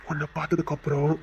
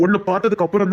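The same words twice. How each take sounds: First: Low, hushed confession; tender repetition. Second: Said in the usual way. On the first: Acted. Suitor telling her life changed on seeing her, soft and low. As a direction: drop softer and lower on the phrase.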